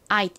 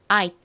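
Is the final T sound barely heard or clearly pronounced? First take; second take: barely heard; barely heard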